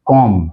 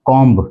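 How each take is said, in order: First: कॉम ending on M; कॉम closed on a plain "m"; silent B. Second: कॉम्ब with a sounded B; कॉम्ब ending in "mb"; common mispronunciation. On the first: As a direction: drop the B from कॉम. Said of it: "बी इसके अंदर silent है". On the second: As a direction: pronounce the final B of कॉम्ब. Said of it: "गलत बोलते हैं". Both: Shown as a demonstration.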